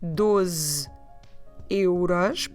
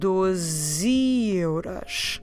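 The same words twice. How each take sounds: First: The two words are said separately. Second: The two words are run together quickly.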